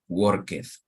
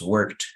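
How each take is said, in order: First: The ending is said as an extra syllable. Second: The ending is a plain t sound. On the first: The speaker calls it wrong. "and not work" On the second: The speaker calls it right. "you will pronounce"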